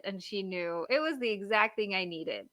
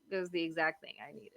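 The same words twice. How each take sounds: First: Said in the usual way. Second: Soft, quick repeat to herself; quiet aside. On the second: Real, not acted. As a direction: murmur it under her breath, faster.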